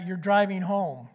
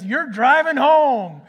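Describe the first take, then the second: First: Said in the usual way. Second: Slow, loud, stern repeat; a father ordering his son to drive home; firm insistence. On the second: Retold or imitated. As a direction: lay down the law, no arguing. Dad repeats firmly.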